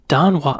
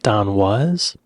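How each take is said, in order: First: The surname ends without an s sound. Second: The surname ends with an s sound. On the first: This is how the name was assumed to be said. The speaker calls it wrong. "I thought his name was [name]" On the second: This is how the man himself says the name. The speaker calls it right. "he's pronouncing it Don Was"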